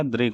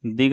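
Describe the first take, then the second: First: Said in the usual way. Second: दिग with no r after d; missing r. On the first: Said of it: "दृग होगा". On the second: Shown as a demonstration. Teacher showing the wrong form, दिग without the r. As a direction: say दिग as plain "dig". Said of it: "नहीं होगा".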